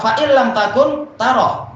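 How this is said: There is a pause right after takun. If you cease to exist, you will see Him. The speaker calls it wrong.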